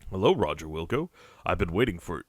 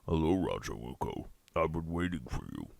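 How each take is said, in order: First: It is read in the speaker's own voice. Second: It is said in a put-on Sludge voice.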